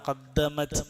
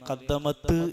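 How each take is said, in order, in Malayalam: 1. അവസാന t ബൗൺസില്ലാതെ വൃത്തിയായി നിൽക്കുന്നു. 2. അവസാന t പ്രതിധ്വനിയുള്ള ബൗൺസോടെ പുറത്തുവിടുന്നു. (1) "സുക്കൂനിട്ട് വന്നാൽ" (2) "എന്ന് പറയേണ്ടതില്ല"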